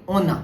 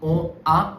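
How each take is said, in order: First: An N sound links the two words together. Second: The two words are said separately, no N sound. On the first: The speaker calls it right. "this will be ona" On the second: The speaker calls it wrong. "this will not be on A"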